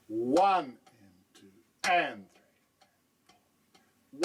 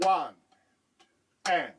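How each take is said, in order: First: Drawn-out count, accents leaning louder; very slow demo count. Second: Said in the usual way. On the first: Shown as a demonstration. Teacher slowly counting exercise three for the student. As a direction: stretch each count out slowly. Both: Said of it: "Exercise three shifts the second accent".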